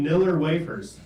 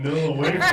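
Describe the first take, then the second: First: Niller with a hard final R. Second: Said in the usual way. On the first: Retold or imitated. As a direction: end Niller on a strong R sound. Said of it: "put a hard R on Nilla wafers". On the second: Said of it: "hard R on Nilla wafers".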